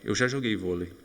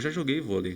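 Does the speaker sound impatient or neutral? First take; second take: neutral; impatient. First: It is said with a calm, neutral intonation. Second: It is said with an impatient, insistent intonation. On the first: I have had this experience at some point. "Eu quero só dizer que eu já tive essa experiência" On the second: I have already done it, so why do it again? "com a entonação que eu usei antes pode significar um pouco, né? Ter uma, um significado um pouco diferente"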